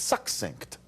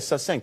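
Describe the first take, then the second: First: The double c sounds like ks. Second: The double c sounds like a plain s. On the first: The speaker calls it right. "it's an X sound" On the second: The speaker calls it wrong. "People say"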